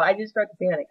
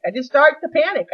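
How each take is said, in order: First: Said in the usual way. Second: Rising panic. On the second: Shown as a demonstration. Telling the audience about her panic, voice rising. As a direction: let the panic climb on the repeat.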